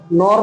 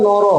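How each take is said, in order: First: নর said as "nor", ending on the r; one syllable in নর, closed by r; final vowel dropped. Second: নর said as "noro", ending in an open o; two syllables in নর, no-ro; final vowel sounded. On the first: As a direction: cut the inherent o off নর. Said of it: "নর নয়". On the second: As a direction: sound the inherent o at the end of নর. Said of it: "এটা উচ্চারণ হবে নর". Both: Shown as a demonstration.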